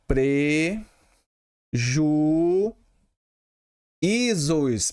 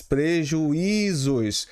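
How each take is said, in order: First: "Preju-, isos" in drawn-out pieces with long pauses; syllable by syllable. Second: Said in the usual way. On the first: Shown as a demonstration. Teacher leading pupils through the word, syllable by syllable. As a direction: break "Preju-, isos" slowly into separate syllables. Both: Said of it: "Como é que se separa prejuízo?".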